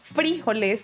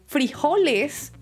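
First: The stress is on the first syllable. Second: The stress is on the second syllable. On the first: "como la tilde y el acento en la I" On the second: "frijoles también está correcto"

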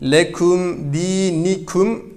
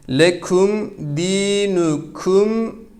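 First: The vowel after the n is an 'i'. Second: The vowel after the n is a 'u'. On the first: The speaker calls it wrong. "Bunu esre okumayın. Lekum dinikum demeyin sakın ha" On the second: The speaker calls it right. "Buradaki nunun harekesi ötredir"

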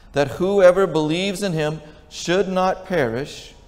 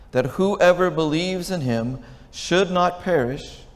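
The two takes are said the same way.

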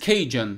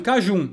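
First: The word is said with English pronunciation. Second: The word is said with Portuguese pronunciation.

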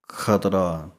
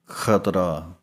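The two takes are said the same way.

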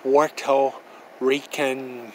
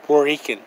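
First: The phrase is said slowly and carefully. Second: The phrase is said quickly and run together. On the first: The speaker calls it right. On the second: The speaker calls it wrong.

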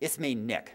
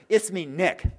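First: The phrase is said at a normal, moderate volume. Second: The phrase is said loudly and emphatically.

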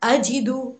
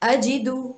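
No difference in how they are said.

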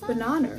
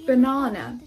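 First: The vowels are said with an added r-coloring. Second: The vowels are said without any r-coloring. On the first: The speaker calls it wrong. "而不是banana" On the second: The speaker calls it right. "比如说banana"

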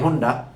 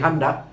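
First: The first vowel is a rounded 'oo' sound. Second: The first vowel is an open 'ah' sound. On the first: This is the Bengali pronunciation. "বাংলায় হুন্ডা" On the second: This is the English pronunciation. "ইংরেজিতে উচ্চারণটি হান্ডা"

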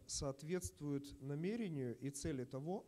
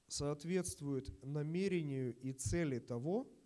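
First: The sentence is spoken at a normal, quicker pace. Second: The sentence is spoken more slowly and deliberately.

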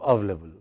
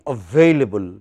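First: One syllable of the word is dropped. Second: Every syllable of the word is pronounced. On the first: The speaker calls it wrong. "because people spoke rapidly ... One part went" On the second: The speaker calls it right. "It should be available"

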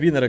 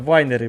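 First: The first vowel sounds like 'ee'. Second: The first vowel sounds like 'ai'. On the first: The group's own playful version, hinting at winners. "А ми вінери кажемо, бо ми переможці по життю" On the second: This is the proper name of the place. "Це вайнери"

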